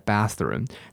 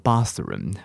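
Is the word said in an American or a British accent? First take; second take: American; British. First: It is said with an American accent. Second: It is said with a British accent. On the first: "我们以前会讲bathroom" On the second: "那英国人是念bathroom"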